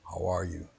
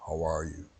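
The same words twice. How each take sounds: The two takes are said the same way.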